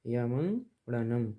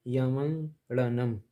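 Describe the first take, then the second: First: यमंगड़नम again slow and even; slow careful reading. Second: यमंगड़नम stretched slowly syllable by syllable; slow careful reading. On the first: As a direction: model यमंगड़नम for students. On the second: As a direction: draw out यमंगड़नम clearly. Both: Shown as a demonstration. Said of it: "इसको ऐसे पढ़ें".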